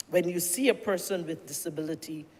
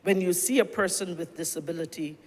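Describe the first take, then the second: No difference in how they are said.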